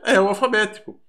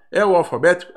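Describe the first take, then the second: First: "É o alfabético." with the voice falling at the end, as a firm answer; settling fall. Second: "É o alfabético?" with the voice rising at the end, as a real question; questioning rise. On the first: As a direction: state it flatly, pitch dropping on "alfabético". Teacher answers her own question. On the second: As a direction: ask it, pitch climbing on "alfabético". Teacher asks, then answers herself. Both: Shown as a demonstration.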